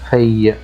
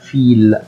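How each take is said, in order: First: The word ends with a y-like glide. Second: The word ends with a clear l sound. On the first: The speaker calls it right. "في في" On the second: The speaker calls it wrong. "ما ينفعش اقول فيل، خطأ"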